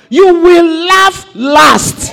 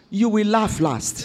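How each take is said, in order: First: Loud, slow, drawn-out proclamation; preaching shout. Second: Soft and low, almost to herself; quiet promise. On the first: Preacher to congregation, proclaiming triumph at full shout. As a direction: shout it out slowly to the church. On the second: Preacher to congregation, softly promising victory. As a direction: let it sink in quietly. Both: Real, not acted.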